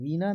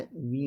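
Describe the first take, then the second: First: वीणा said as "veena", plain n; tongue-tip n in वीणा; raised वीणा as the mistake; wrong pronunciation. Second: वीणा with retroflex ṇ, near "veeda"; correct pronunciation. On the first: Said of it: "वीणा नहीं होता है". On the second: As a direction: curl the tongue back in वीणा. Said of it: "वीणा होता है". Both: Shown as a demonstration.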